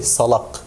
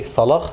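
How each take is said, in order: First: The word ends in a hard k stop. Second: The word ends in a breathy velar fricative. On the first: This is not how local speakers say it. The speaker calls it wrong. "they don't say salak" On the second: This is how local speakers say it. The speaker calls it right. "is pronounced as a voiceless Euler fricative or Wheeler fricative in word final position"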